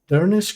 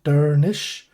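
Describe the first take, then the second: First: The word ends with an 'sk' sound. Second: The word ends with an 'sh' sound.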